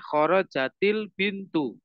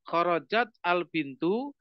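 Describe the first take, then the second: First: The words are linked with an i sound. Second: The words are said separately, without linking.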